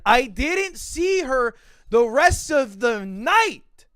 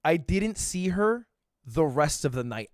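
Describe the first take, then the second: First: Slow, higher, each word of "didn't see her" punched; emphatic insistence. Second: Said in the usual way. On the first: Retold or imitated. Insisting he is not lying, slow and emphatic. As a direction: stretch out "the rest of the night" emphatically.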